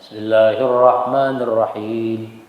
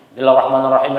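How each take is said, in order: First: It is recited very slowly. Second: It is recited very quickly.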